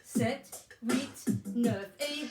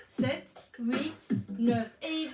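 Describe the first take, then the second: No difference in how they are said.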